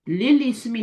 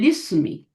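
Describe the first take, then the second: First: The vowel of 'ismi' is pronounced separately. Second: The vowel of 'ismi' is dropped and merged. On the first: The speaker calls it wrong. "नहीं पढ़ेंगे" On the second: The speaker calls it right. "इसको लिस्मी पढ़ेंगे"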